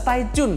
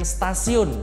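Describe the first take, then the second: First: The two words are said clearly and separately. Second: The two words are slurred into one word. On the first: The speaker calls it right. "dibaca jelas stay tune" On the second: The speaker calls it wrong. "bukan stasiun"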